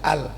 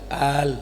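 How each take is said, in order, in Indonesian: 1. Vokal dalam al pendek. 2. Vokal dalam al dibaca panjang. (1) "jangan sekali-kali baca al" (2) "hamzahnya minimal dua harokat"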